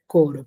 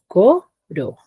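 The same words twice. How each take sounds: First: Said in the usual way. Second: "co", pause, "ro"; coro split into syllables. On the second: Shown as a demonstration. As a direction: break coro into two separate syllables. (coro, separado en sílabas) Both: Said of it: "tiene dos sílabas".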